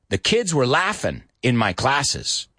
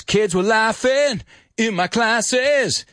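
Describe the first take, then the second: First: Said in the usual way. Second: Slow, higher sung line; slow melodic sung line; sung lyric. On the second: Retold or imitated. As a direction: sing the lyric as in the song. Teacher quotes the song lyric.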